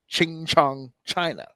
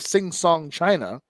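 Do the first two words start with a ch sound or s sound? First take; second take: ch sound; s sound. First: The first two words begin with a ch sound. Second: The first two words begin with an s sound. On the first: The speaker calls it wrong. "it gave her a ch sound" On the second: The speaker calls it right. "a s sound"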